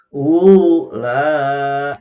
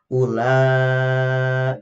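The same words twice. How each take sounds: First: Ula with the u stretched and loud; wrong long reading. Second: Ula read short, no lengthening on the wau; correct short reading. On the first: Teacher showing the mothers what not to do, loud drawn-out chant. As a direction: overlengthen the wau as the error. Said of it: "jangan seperti ini". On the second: Teacher giving the correct short reading, chanted. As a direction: keep Ula brief. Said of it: "langsung saja dibacanya dipendekkan". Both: Shown as a demonstration.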